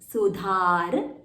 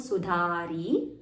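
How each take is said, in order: First: The word ends in a consonant sound. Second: The word ends with an added i vowel.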